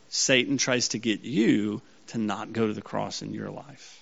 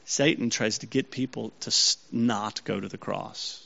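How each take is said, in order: First: Single out "you", then let the rest fall away; stress on YOU. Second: Said in the usual way. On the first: Real, not acted. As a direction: lean on "you" with a lift and a pause after it. Same sentence turned on the listeners.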